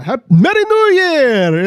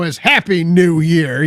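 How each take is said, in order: First: High, drawn-out festive cry; hammed-up imitation of a jolly foreign traveler; exuberant movie greeting. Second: Said in the usual way. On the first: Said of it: "he comes in and he's like". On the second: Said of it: "And they're like".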